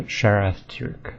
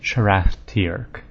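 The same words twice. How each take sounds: First: Sharath Tirk said "SHARE-eth turk"; slow Sharath Tirk, Tirk rhyming with work; speaker's own reading. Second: Sharath Tirk said "shur-ATH tee-ark"; "Sharath Tirk" with a full "ath"; official pronunciation. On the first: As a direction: read "Sharath Tirk" with first syllable like "share". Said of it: "more emphasis on the first syllable". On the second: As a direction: stretch Tirk into "tee-erk". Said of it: "they pronounce it Sharath Tirk". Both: Shown as a demonstration.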